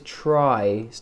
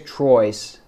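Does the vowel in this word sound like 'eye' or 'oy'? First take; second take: eye; oy. First: The vowel sounds like 'eye', as in try. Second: The vowel sounds like 'oy', as in Troy. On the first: The speaker calls it right. "But try" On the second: The speaker calls it wrong. "She goes Troy's. She almost says Troy"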